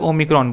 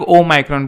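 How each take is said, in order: First: It is said the Indian way. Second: It is said the American or British way.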